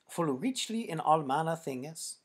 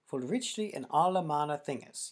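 First: The word 'all' has a single syllable. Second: The word 'all' has two syllables. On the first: The speaker calls it wrong. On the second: The speaker calls it right.

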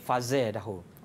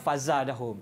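First: The long vowel after z leans toward e. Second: The long vowel after z is an open a. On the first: "Ibnu Zakwan baca dengan Imalah" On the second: "Hisham baca dengan Al-Fatah"

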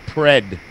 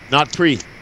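First: The syllable has a short vowel rhyming with red. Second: The syllable has a long 'ee' vowel. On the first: The speaker calls it right. "Pred. Like red" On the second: The speaker calls it wrong. "It's not how we say it. Not pre"

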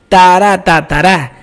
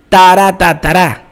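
Both takes have the same delivery.

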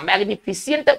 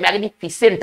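First: The ending sounds like 'see-ant', with an extra vowel. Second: The ending sounds like 'sent', with no extra vowel. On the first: The speaker calls it wrong. "आमतौर पर लोग इसे पढ़ते हैं" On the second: The speaker calls it right. "इसका सही उच्चारण होना चाहिए"

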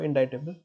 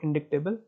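First: No k sound; it sounds like in-dye-table. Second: A k sound is heard before the t. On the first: The speaker calls it right. "इनडाइटेबल बोलते हैं इसको" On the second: The speaker calls it wrong. "It's not इनडिक्टेबल"

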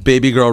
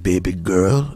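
First: It is said in an ordinary, plain voice. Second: It is said in an imitated, put-on character voice. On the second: "Like he does on the show"

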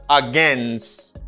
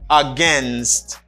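First: The word is said in an American pronunciation. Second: The same.

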